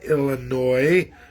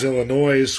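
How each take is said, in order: First: The word is said slowly and carefully. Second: The word is said quickly and casually. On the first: "I have to say it slower" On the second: "which is how I grew up out west here"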